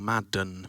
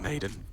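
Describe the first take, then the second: First: The first vowel sounds like 'mad'. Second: The first vowel sounds like 'made'. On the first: The speaker calls it right. "I want to make sure I'm saying it right" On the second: The speaker calls it wrong. "I keep calling him Maiden"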